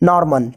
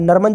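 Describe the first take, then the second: First: The first vowel is an 'aw' sound with r. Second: The first vowel is a short 'a' sound. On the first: The speaker calls it right. "न आकार होगा, म न ऊपर रेफ" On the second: The speaker calls it wrong. "ये गलत है"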